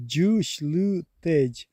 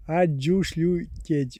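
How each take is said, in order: First: Чушь лю течь stretched very slowly, chunk by chunk; very slow split pronunciation. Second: А чушь лю течь broken into slow chunks; slow split pronunciation. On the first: Showing a viewer how to say it, very slowly. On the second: Correcting a viewer's spelling, slow and chunked. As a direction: say А чушь лю течь piece by piece, slowly. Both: Shown as a demonstration. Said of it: "Первая буква А".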